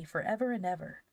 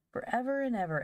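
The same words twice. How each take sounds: First: Lightly voiced small boy; a hint of a wistful little boy. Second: Put-on high-pitched small child's echo; little girl echo. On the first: Little Davy wishing Christmas would last, lightly voiced small boy. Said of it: "said Da-, little Davy". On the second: Little Phronsie echoing her brother, high small-child voice. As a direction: chime in high, like a tiny girl. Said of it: "echoed little Phronsie". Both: A narrator's reading.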